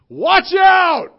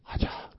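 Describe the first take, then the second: First: The words are said loudly with emphasis. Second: The words are whispered quietly. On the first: The speaker calls it right. "a little bit of emphasis that he placed on those two words" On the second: The speaker calls it wrong. "Think he whispered"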